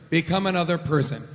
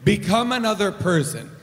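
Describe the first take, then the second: First: Quick, lower chant-like repeat; fast low mantra. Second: Said in the usual way. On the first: Shown as a demonstration. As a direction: rattle it off like a mantra. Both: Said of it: "I understand Energico to work like this".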